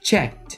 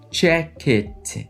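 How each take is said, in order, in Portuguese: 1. O final é um som de T simples, uma sílaba só. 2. O final é uma sílaba extra, como id. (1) "Esse ed terá som de T" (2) "Tá vendo que eu não estou falando check it"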